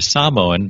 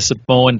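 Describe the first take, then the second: First: Samoan is said with a native-style pronunciation. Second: Samoan is said with an everyday English pronunciation. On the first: The speaker calls it right. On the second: The speaker calls it wrong.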